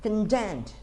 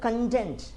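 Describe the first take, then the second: First: The stress is on the second syllable. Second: The stress is on the second syllable.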